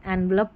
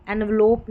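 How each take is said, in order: First: "एनवलप" with "lup" at the end; short last vowel. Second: "एनवलोप" with "lope" at the end; long o ending. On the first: Teacher showing what people do say, "एनवलप" with short uh. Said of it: "एनवलप बोलते हैं". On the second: Teacher showing what people don't say, "एनवलोप" with long oh. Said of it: "एनवलोप नहीं बोलते". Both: Shown as a demonstration.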